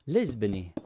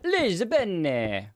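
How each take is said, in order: First: The name is said in a Portuguese style. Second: The name is said in an Italian style. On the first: "Did I pronounce it even remotely close?" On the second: "go totally Italian with it"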